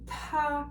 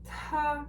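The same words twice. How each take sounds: First: The t is said with a puff of air. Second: The same.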